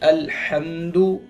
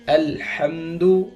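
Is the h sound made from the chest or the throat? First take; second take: throat; throat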